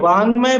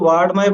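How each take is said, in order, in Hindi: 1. बीच का व्यंजन एक नासिक्य 'ng' ध्वनि है। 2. बीच का व्यंजन 'd' ध्वनि है। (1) "ये ड नहीं है, ङ है" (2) "बहुत से इसको वाड्मय बोलते हैं"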